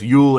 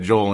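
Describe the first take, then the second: First: The name is said the native way. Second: The name is said as in English. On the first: The speaker calls it right. "No, it's Yule Eriksson Ek" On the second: The speaker calls it wrong. "I said Joel anyway, because you just see Joel"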